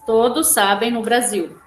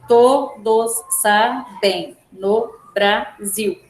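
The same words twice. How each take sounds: First: Said in the usual way. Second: "Todos sabem no Brasil" very slow, a pause after each syllable. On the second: Shown as a demonstration. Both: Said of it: "vocês vão separar".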